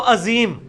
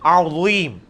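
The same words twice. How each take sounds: First: عظیم said casually as "azeem", plain vowel and z; mispronounced. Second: عظیم opened on a throaty 'ain, heavy zaa, long "eem"; correct pronunciation. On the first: Teacher quotes the class's mistake, mispronounced. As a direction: say عظیم as a quick Urdu "azeem". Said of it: "آپ عظیم پڑھ رہے ہوتے ہیں". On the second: Teacher shows students the proper sound, correct pronunciation. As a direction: draw out عظیم with full Arabic consonants. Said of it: "آپ یہ سیکھیں گے تو آئے گا نا". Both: Shown as a demonstration.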